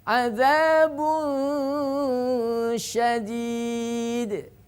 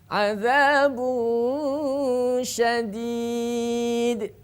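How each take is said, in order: The two takes are said the same way.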